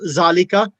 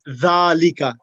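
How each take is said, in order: First: It begins with a buzzing z sound. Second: It begins with a soft th sound. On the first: The speaker calls it wrong. "Not zalika" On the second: The speaker calls it right. "it should be dhalika. The tongue the, it should be underneath the front two teeth"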